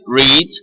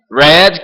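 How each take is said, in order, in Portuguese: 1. A vogal é longa, como em 'reed'. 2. A vogal é curta, como em 'red'.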